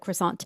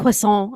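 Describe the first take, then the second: First: It is pronounced with an English accent. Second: It is pronounced with a French accent. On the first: "otherwise it's like croissant" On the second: "I'm going to say it like that, a croissant. I can't if I'm talking about Paris"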